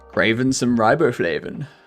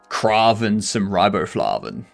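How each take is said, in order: First: It is said in a plain, ordinary way. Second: It is said in an odd, exaggerated way. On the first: The speaker calls it wrong. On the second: The speaker calls it right.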